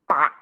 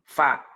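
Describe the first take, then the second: First: Both lips close, so no breath escapes. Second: Upper teeth touch lower lip, letting breath escape. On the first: The speaker calls it wrong. "menempelkan bibir bawah dengan bibir atas" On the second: The speaker calls it right. "Menempelkan bibir bawah ke ujung gigi seri atas"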